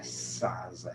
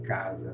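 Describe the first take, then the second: First: "sasa" com som de S no lugar do K inicial; pronúncia errada. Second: "casa" com K inicial e som de Z no meio; pronúncia correta. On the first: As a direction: troque o K por S: "sasa". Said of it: "não é sasa". ("sasa" começando sibilante, como exemplo errado) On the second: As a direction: diga "casa" como CÁ-za, tônica na primeira. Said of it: "se pronuncia a palavra assim". ("casa" pronunciada cá-za, em tom de demonstração) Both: Shown as a demonstration.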